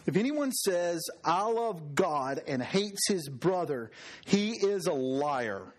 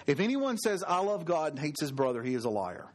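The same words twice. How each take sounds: First: Deliberate scripture reading, words drawn out; slow, weighty reading. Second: Said in the usual way. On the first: Real, not acted. Preacher reads John to the congregation, slow and weighty. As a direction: read the verse slowly, letting each phrase land. Reads the verse, then repeats it.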